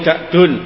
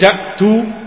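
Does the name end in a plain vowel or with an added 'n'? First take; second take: added n; plain vowel. First: The name ends in a vowel followed by n. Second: The name ends in a plain vowel, no final n. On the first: The name is treated as taking nunation. The speaker calls it right. "boleh juga membacanya munsharif. Tapi yang lebih bagus munsharif" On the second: The name is treated as not taking nunation. The speaker calls it wrong. "boleh kita membacanya malayan sharif"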